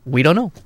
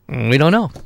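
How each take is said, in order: First: The words start directly, with no hum. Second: A short hum comes before the words.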